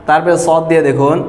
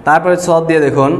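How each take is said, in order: Both takes have the same delivery.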